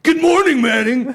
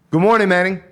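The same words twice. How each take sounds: First: High, loud mock yell; misread as yelling. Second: Upbeat good-morning greeting, pitched up and loud; cheerful text greeting. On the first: Reader misreading a good morning text, yelled. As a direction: shout the greeting as if all caps. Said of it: "I could literally read it like that". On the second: Sender texting someone good morning, cheerful and friendly. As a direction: wish good morning as it was meant. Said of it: "And that's how you send it". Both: Shown as a demonstration.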